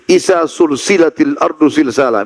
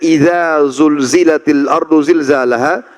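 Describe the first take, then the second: First: The letters are voiceless s sounds. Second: The letters are voiced z sounds. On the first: The earth is joined together in a chain. The speaker calls it wrong. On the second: The earth is shaken with a great shaking. The speaker calls it right.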